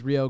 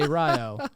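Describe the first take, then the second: First: The name is said the usual nationwide way. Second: The name is said the local Ohio way. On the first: This is how the name is said across the country. "anywhere else you go in the country, it's Rio Grande" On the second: This is how locals in Ohio say the name. "in Ohio, they have to be different, and they say Rio"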